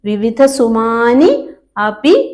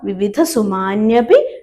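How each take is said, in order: First: The two words are said separately, unjoined. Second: The two words are merged into one form.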